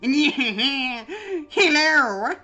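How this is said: It is said in a put-on character voice.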